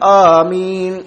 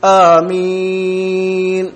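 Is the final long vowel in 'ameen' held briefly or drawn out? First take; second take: briefly; drawn out. First: The final long vowel is held only briefly. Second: The final long vowel is drawn out at length. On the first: "ആമീൻ ചുരുക്കി പറയാം, രണ്ട് ഖദർ" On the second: "ആമീൻ നീട്ടിയും പറയാം"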